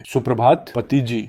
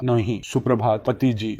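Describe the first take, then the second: First: Said in the usual way. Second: A hushed, gentle good morning to his wife; soft and tender. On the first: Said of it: "होठों के कोने अपने आप ऊपर उठ गए". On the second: Acted. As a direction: murmur it softly, lovingly. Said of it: "नरम आवाज में कहा". (नरम, प्यार भरी धीमी आवाज़ में)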